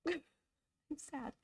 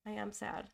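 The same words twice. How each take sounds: First: Higher, laughing through it; amused, half-joking admission. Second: Said in the usual way. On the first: Real, not acted. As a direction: giggle at your own sadness.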